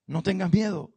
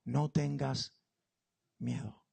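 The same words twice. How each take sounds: First: Firme tranquilizador. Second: Suave consuelo de ángel. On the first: Repetición más firme. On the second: Ángel habla a Agar. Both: Acted.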